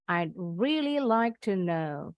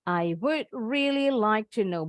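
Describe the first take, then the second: First: The words 'I would' are contracted to 'I'd'. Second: The words 'I would' are said in full.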